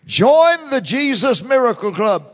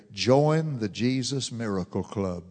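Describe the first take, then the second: First: Higher and louder, "Join" punched; proclaimed slogan. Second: Low and soft, a calm first take; low soft announcement. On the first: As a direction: ring out the slogan to the whole church. Repeated slogan, loud take. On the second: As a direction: set it down quietly before repeating it. Repeated slogan, soft take. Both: Real, not acted.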